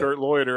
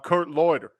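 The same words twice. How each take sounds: First: It is said in a put-on radio voice. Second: It is said in a natural speaking voice. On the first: "not even my real speaking voice, the one you know from the radio" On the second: "this my real speaking voice"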